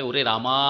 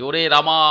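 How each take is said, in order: First: Said in the usual way. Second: রামা with the last আ stretched and louder; drawn-out final a. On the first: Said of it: "এই রামার পরে আ যে এলো". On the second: Shown as a demonstration. Teacher calling a distant friend, stretched vowel. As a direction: pull out the আ of রামা like a call. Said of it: "আ বললে".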